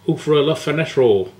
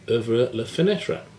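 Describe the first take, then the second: First: It ends with an added Bristolian L sound. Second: It ends on the vowel, with no added L.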